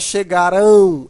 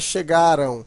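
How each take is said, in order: First: The final syllable is strong and stressed. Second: The final syllable is weak and unstressed. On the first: The speaker calls it wrong. "Não é chegarão" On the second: The speaker calls it right. "O som é fraco"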